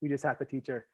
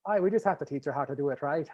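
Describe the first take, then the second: First: Said in the usual way. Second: Put-on quick, failed stab at a Newfie accent; badly faked Newfoundland accent turning Irish. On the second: Host who can't do it tries anyway, bad Newfoundland accent. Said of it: "Oh, that, that's even worse".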